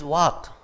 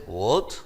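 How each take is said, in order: First: Said in the usual way. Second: Man's speech. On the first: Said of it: "It is". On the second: Retold or imitated. Lecturer contrasts the man's version, lower pitch. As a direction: lower gruff what. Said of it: "And man says".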